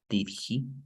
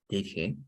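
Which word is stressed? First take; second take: he; did. First: The stress falls on the word he. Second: The stress falls on the word did. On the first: The speaker calls it wrong. "you wouldn't say" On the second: The speaker calls it right. "So you focus on the auxiliary verb"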